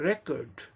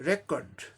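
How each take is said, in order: First: The stress is on the first syllable. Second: The stress is on the first syllable.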